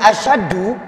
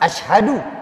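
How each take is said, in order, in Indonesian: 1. Ada sh tanpa h setelahnya. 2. Ada sh lalu diikuti h berdesah. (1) "tidak ada hak menjadi asyadu" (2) "Ini yang tepat"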